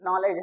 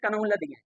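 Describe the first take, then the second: First: It begins with N, with no K sound. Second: Each letter is sounded, starting with K. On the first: The speaker calls it right. "बल्कि ये क्या है" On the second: The speaker calls it wrong. "जिसको बचपन में पढ़ते थे"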